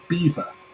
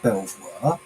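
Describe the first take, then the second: First: The name is said like 'beaver'. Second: The name is said as 'bel-vwar'. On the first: This is the English way of saying it. "in England we would pronounce that Beaver" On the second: This is the American way of saying it. "Is that Belvoir?"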